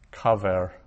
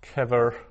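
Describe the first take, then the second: First: The first vowel is a lengthened 'a' sound. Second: The first vowel is a short 'e' sound. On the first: The word ends a verse or half-verse. "at the end goes into a pausal form" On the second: The word stands in its ordinary position. "So if we have kever"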